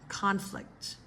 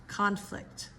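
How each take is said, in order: Both takes have the same delivery.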